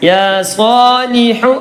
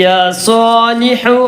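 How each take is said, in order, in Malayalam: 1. അവസാന വാക്ക് ഹ്രസ്വമായ u സ്വരത്തിലാണ് അവസാനിക്കുന്നത്. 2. അവസാന വാക്ക് ഹ്രസ്വമായ u സ്വരത്തിലാണ് അവസാനിക്കുന്നത്.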